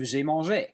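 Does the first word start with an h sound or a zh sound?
zh sound. The first sound is a buzzing zh. "instead of"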